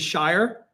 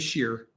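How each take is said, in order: First: The ending rhymes with fire. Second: The ending rhymes with fear. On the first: This is how the listeners might say it. "Do you guys say Shire?" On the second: This is how the speaker's side says it. "We'd say Sheer"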